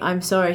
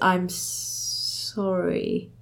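First: It is said easily and fluently. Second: It is said with difficulty, hesitantly.

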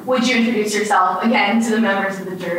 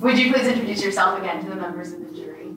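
First: It is said in a plain, ordinary voice. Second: It is said in a theatrical Shakespearean voice.

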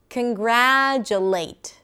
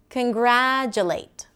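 No difference in how they are said.

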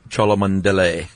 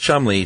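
First: The name is sounded out as it is spelled. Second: The name is said short, as two syllables. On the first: This is how a video pronounced the name. The speaker calls it wrong. "And they pronounced it Charles Cholmondeley" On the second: This is how the man himself said his name. The speaker calls it right. "he would say"

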